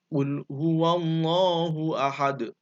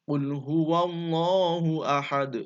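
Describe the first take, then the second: No difference in how they are said.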